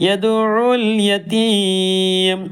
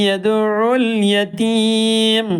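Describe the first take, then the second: No difference in how they are said.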